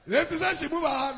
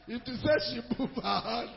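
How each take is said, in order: First: Higher and louder, pressing the point; emphatic repeat. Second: Chuckling through the words; a laugh breaking into the phrase. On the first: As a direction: say it again, hammering it home. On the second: Retelling the pistol moment, laughing. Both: Real, not acted.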